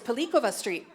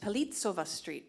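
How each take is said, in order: First: The middle consonant is a k sound. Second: The middle consonant is a ts sound. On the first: It follows the origin of the person it is named after. "named after the eighteenth century Italian poet" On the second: It follows the usual rule of the local language. "the C in Czech is pronounced like ts"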